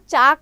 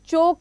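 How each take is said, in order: First: The vowel is a plain open 'aa' sound. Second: The vowel is a plain 'o' sound. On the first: "हम इसको चाक नहीं पढ़ते" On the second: "और चौक भी नहीं कहते हैं"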